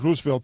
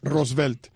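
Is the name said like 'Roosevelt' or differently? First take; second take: like Roosevelt; differently. First: The name is said like the word Roosevelt. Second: The name is said with a different pronunciation. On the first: The speaker calls it wrong. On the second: The speaker calls it right.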